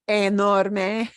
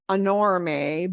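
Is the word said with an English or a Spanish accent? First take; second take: Spanish; English. First: It is said with a Spanish-sounding accent. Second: It is said with an English-sounding accent. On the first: The speaker calls it right. "but enorme" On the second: The speaker calls it wrong. "Not enorme"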